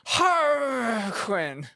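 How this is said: The name is said in an imitated foreign accent. The speaker calls it wrong. "you know who will not say it correctly? My mother"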